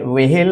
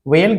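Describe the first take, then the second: First: An h sound comes after the v. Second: It is said with no h sound. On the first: "वेहेल नहीं होता" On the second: "वेल गलत है"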